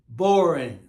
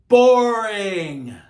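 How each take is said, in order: First: Said in the usual way. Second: "boring" stretched long, loud and high, then falling; emphatic, long-held "boring"; drawn-out "boring". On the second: Real, not acted. Mocking how dull it was.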